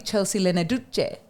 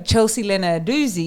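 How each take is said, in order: First: The double z is sounded like ch. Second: The double z is sounded like z.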